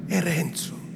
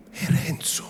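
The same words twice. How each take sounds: First: È Renzo voiced, higher, falling at the end; rueful statement. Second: È Renzo whispered, higher, shaking her head; whispered sorrow. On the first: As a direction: say È Renzo aloud with a sad fall. (È Renzo detto a voce, cadenza discendente) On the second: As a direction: murmur È Renzo to herself. (È Renzo sussurrato, con rammarico) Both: A narrator's reading. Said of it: "tentennando il capo".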